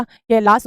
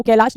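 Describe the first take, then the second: First: कैलाश said with a final s; कैलाश ending in s instead of sh; correct sa ending. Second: कैलाश ending in a sh sound; कैलाश with a hushing final sh; wrong sha ending. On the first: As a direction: say कैलाश as "kailaas". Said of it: "कैलाश होता है". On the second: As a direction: say कैलाश as "kailaash". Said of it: "वो कैलाश नहीं होता". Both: Shown as a demonstration.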